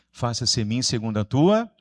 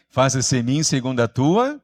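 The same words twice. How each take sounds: First: Said in the usual way. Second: Louder call with a rising, unfinished end; rally the group to answer with more force; stronger prompting. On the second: Shown as a demonstration. Preacher prompting the congregation after a weak response, stronger call. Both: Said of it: "tá meio fraco, hein?".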